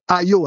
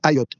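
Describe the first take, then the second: First: The name ends on a vowel, no final t. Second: The name ends with a sounded t. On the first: This is how outsiders say the name. "vous dites Ayo" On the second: This is how locals say the name. "nous, on prononce Ayotte"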